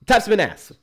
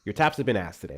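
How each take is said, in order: First: Louder. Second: Said in the usual way. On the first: Real, not acted. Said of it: "repeated louder". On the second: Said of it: "repeated line".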